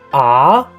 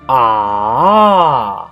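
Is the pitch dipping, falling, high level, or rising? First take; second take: rising; dipping. First: The pitch rises from mid to high. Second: The pitch dips down and then rises. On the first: "The second tone is an up" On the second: "third tone, first down and then up"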